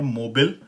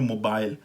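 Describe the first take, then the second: First: It is said with an American pronunciation. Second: It is said with a British pronunciation.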